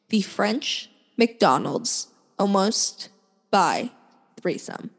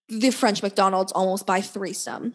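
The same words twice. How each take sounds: First: The phrase is said slowly and clearly. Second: The phrase is said quickly and mumbled. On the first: "I'll say that one more time slower" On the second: "for those who don't understand mumbling"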